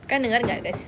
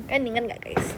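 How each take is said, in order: Both takes have the same delivery.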